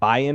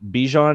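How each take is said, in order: First: The name is said without a J sound. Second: The name is said with a J sound. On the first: "Sometimes you don't say the J" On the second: "sometimes you do"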